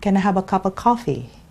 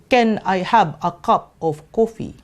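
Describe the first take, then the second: First: The words are linked together smoothly. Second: The words are said separately, one by one.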